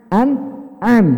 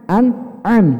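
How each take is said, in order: The two takes are said the same way.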